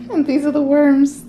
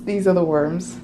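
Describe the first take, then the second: First: High, loud sing-out; playful reveal. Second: Said in the usual way. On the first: Pretend. Vlogger unboxing the worms, high and loud playful reveal. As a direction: present them with a raised, excited voice.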